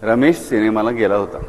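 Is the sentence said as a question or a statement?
statement. It is said as a plain statement.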